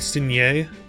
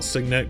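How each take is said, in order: First: The word is given a French-like pronunciation. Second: The word is given an American English pronunciation. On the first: "There's a lot of French terms in this game" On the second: "I call it Signet because I'm American English"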